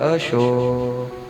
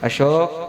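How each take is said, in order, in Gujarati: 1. નામ હૂંફાળા, પ્રેમભર્યા સ્વરે બોલાવાય છે. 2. નામ ઠંડા, બદલાયેલા સ્વરે બોલાવાય છે. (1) "પ્રેમથી બોલાવે" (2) "સુર બદલાઈ જાય"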